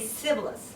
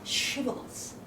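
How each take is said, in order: First: The word begins with an s sound. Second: The word begins with an sh sound. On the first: The speaker is from another tribe. The speaker calls it wrong. "some people don't know how to pronounce this she, right? So they will say sibboleth" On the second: The speaker belongs to the same tribe. The speaker calls it right. "they are supposed to pronounce shibboleth"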